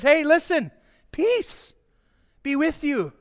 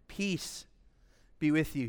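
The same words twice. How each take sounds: First: Acting out Jesus's greeting in a raised, higher voice; high, calling-out greeting; high-pitched greeting. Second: Very quiet, lowered voice, as a gentle appearance; quiet, low greeting; hushed quote of Jesus. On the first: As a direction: lift the voice well up. Acts Jesus entering alive, greeting. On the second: Acted. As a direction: say it softly and low. Quoting Jesus appearing among disciples.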